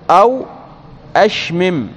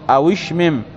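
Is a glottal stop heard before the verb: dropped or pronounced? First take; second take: pronounced; dropped. First: The waw is unvowelled; a glottal stop starts the verb. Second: The waw takes a short a; no glottal stop follows. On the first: This is the original form. "والأصل أو أشمم" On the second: The verse shortens it to keep the metre. "بفتح الواو بدل السكون"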